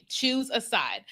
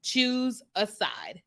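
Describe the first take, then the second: First: Said in the usual way. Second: Drawn out slowly and softer; slow emphatic. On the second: Shown as a demonstration. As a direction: spell it out word by word, letting each one land. Stating the one message to tell them.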